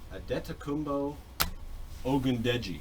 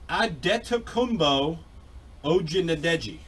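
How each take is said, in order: First: The surname is said roughly as Oh-goon-deji. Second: The surname is said roughly as Oh-jee-na-deji. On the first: "I think is probably how the absolute correct pronunciation is" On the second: "That was probably not bad"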